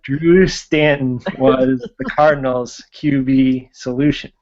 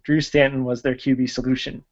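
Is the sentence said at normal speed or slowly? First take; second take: slowly; normal speed. First: It is said more slowly. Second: It is said at normal speed.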